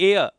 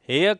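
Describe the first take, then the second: First: The word starts with a vowel sound. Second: The word starts with an h sound. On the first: The speaker calls it right. "इसको बोला जाता है एयर" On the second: The speaker calls it wrong. "हेयर गलत हो जाएगा"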